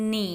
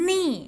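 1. เสียงต่ำลงแล้วค่อยขึ้น 2. เสียงตกลงอย่างเร็วจากระดับสูง

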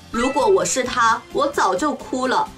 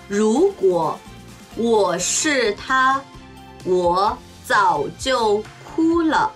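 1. 自然な速いスピードで話されています。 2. ゆっくり、落ち着いて話されています。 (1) "中国語ネイティブスピード1 回" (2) "中国語ゆっくりスピード1 回"

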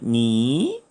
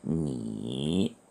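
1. 이 음절은 제2성으로 발음합니다. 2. 이 음절은 제3성으로 발음합니다. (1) "제2성으로 읽으면 니" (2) "제3성으로 읽으면 니"

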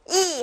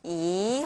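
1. 이 음절은 강한 성조로 읽어요. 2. 이 음절은 부드러운 성조로 읽어요. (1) "그때는 이 하고 강하게 읽히고요" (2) "이 하고 부드럽게 읽히는"

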